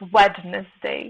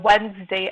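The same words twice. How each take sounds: First: The middle D is clearly sounded. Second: The middle D is silent. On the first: The speaker calls it wrong. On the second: The speaker calls it right.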